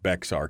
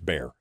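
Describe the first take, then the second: First: It is said as two syllables with an x sound. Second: It is said as one syllable, like bear. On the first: The speaker calls it wrong. "I pronounced it Bexar County" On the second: The speaker calls it right. "I was corrected in the chat room that it's Bear"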